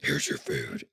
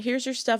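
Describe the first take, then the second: First: It is said in a very deep voice. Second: It is said in a normal voice.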